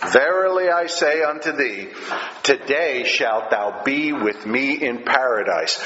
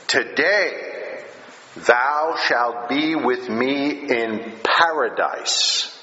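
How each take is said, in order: First: "Verily" hit with a touch of extra weight, then a solemn falling line; intense Verily. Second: Slow, measured, solemn vow; solemn promise. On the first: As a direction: lean into "Verily" to mark it as most important. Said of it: "when he uses that phrase, "Verily I say". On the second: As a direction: quote it slowly like a sacred promise. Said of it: "So he gives a solemn promise". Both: Retold or imitated.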